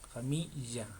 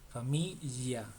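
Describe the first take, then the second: Both takes have the same delivery.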